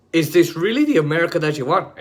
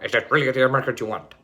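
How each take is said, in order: First: Said in the usual way. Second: Rapid, lower Nixon voice; Richard Nixon impression. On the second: Mocking Nixon's ad for viewers, rapid Nixon voice. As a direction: rattle it off in a lightly done Nixon voice. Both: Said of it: "that's literally how he talked".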